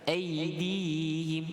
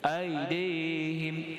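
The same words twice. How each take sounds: First: The middle glide is pronounced soft and smooth. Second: The middle glide is pronounced hard and abrupt. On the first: The speaker calls it right. "dia lembut" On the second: The speaker calls it wrong. "dia tak boleh baca aidihim. Ha, bacaan tu keras"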